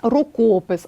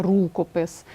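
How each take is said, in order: First: РукОпис with a long stressed КО. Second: РУкопис, first syllable stressed, lower; wrong stress on РУ. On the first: Teacher showing correct compound-word stress, рукопис stressed on КО. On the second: Teacher citing the mistake to avoid, рукопис stressed on РУ. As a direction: hit РУ in рукопис, leaving КО short. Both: Shown as a demonstration. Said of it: "а не рукопис".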